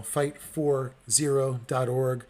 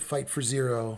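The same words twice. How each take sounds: First: FIGHT, FOR, ZERO, DOT, ORG said slowly, word by word; "fight ... for ... zero ... dot org", spaced out for listeners; slow, spelled-out address. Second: Said in the usual way. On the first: Real, not acted. Repeats the web address for listeners.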